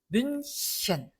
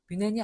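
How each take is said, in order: First: The middle consonant is a soft sh sound. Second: The middle consonant is a plain h sound. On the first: The speaker calls it right. "뮌셴 하고 히 발음이 납니다" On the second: The speaker calls it wrong. "우리나라 사람들이 많이 읽지만 뮌헨이 아니다"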